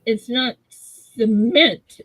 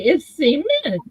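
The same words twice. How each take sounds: First: Cement very slowly as suh-MENT; struggling imitation. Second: Cement as SEE-ment; insisted pronunciation. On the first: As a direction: labour through the unfamiliar short "suh" of cement. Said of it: "I can't even say it". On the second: Shown as a demonstration. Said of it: "says it's the same way".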